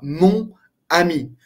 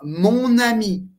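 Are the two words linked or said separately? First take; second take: separate; linked. First: The n is not carried over to ami. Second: The n is pronounced, linking into ami. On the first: The speaker calls it wrong. "não vai falar mon ami" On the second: The speaker calls it right. "Pronuncia o N para juntar as duas palavras"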